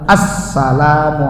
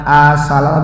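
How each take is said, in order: First: The s sound is held doubled. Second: The s sound is short, not doubled. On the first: The speaker calls it right. "tapi assalamu alayka" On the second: The speaker calls it wrong. "Bukan asala"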